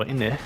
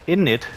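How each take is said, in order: First: Said in the usual way. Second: British innit. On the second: Shown as a demonstration. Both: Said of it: "hint of British".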